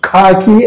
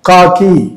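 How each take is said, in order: First: The first k sound has an h breath. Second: The first k sound has no h breath. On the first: The speaker calls it wrong. "అని అనరు" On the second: The speaker calls it right. "చూడండి ఇక్కడ"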